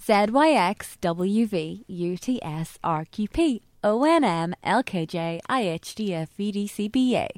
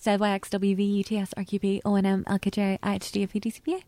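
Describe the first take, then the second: First: Slow. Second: Alphabet rattled off fast. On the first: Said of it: "do it slow". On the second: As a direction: race through the letters. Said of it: "now you can hear it fast". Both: Shown as a demonstration.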